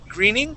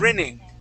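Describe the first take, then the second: First: The first vowel is a long 'ee' sound. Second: The first vowel is a short 'i' sound. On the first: The speaker calls it wrong. "instead of saying gree, greening" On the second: The speaker calls it right. "give me a good short I sound"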